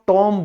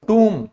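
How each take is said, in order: First: The vowel is a short o sound. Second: The vowel is a long oo sound. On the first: The speaker calls it wrong. "ये भी बिल्कुल गलत है" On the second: The speaker calls it right. "इसे बोला जाता है टूम"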